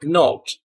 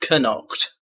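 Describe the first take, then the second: First: The word starts with an N sound, K silent. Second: The word starts with a sounded K before N. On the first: "You don't hear the K" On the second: "No, it's knocked"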